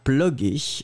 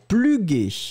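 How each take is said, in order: First: The first vowel sounds close to French o. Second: The first vowel sounds like French u. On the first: The speaker calls it right. "ça va être avec un O, puisque le O est très proche" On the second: The speaker calls it wrong. "si on l'écrivait avec un U, on le prononcerait pluguer"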